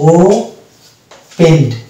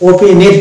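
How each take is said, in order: First: The ending joins the word with no extra syllable. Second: The ending is said as an extra syllable. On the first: The speaker calls it right. "এটা হচ্ছে ও পেন্ড" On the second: The speaker calls it wrong. "এটা ওপেনেড নয়"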